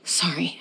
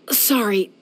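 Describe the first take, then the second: First: Hushed breathy apology, barely voiced; whispered sorry. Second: Said in the usual way. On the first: Emotional confession, voice drops.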